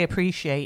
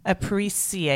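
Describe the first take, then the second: First: The word is pronounced in the ordinary way. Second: The word is pronounced in an unusual, playful way. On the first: "I say appreciate normally" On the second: "so I might start saying it like that"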